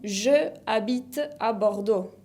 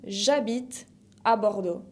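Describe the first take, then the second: First: The vowel of je is kept as a separate syllable. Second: The vowel of je is dropped and joined to habite. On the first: The speaker calls it wrong. "Lo mismo pasa con" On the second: The speaker calls it right. "Se dice más fácil"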